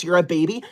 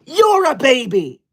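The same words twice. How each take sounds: First: Said in the usual way. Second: High, slow, indignant retort; upset and angry. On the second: Acted. Streamer retorting to baby comment, upset and angry. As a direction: throw the insult straight back, outraged. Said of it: "I'm getting upset and angry".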